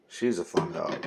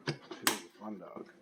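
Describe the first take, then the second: First: Said in the usual way. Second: Much softer and slower, almost to herself; soft repeat. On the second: Real, not acted. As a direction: murmur it fondly under your breath. Soft repeat of previous line.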